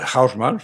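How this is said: The name is pronounced the German way. "pronunciarlo más o menos a la alemana"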